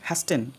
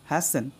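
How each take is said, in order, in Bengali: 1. মাঝখানে T ধ্বনিটি উচ্চারিত হয়। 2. মাঝখানে T ধ্বনিটি নীরব থাকে। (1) "অনেকে উচ্চারণ করবে হ্যাস্টেন, এটা ভুল" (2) "এখানে উচ্চারণ করতে হবে হ্যাসেন"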